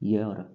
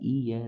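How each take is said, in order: First: The word begins with a 'y' consonant sound. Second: The word begins directly with a vowel sound. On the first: The speaker calls it right. "इसका सही उच्चारण होता है य" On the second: The speaker calls it wrong. "गलत होता है"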